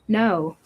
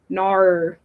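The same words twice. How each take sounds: First: The word ends with a w-like glide. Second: The word ends without a w-like glide.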